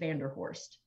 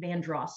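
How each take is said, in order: First: The name is said in its full form. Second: The name is said in a short, clipped form. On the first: This is how the family itself said the name. "the Vanderhorst family that the street is named after pronounced it Vanderhorst" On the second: This is how the street name is usually said locally. "you pronounce it Vandross Street"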